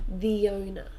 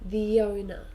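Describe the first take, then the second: Both takes have the same delivery.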